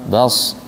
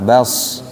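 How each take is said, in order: No difference in how they are said.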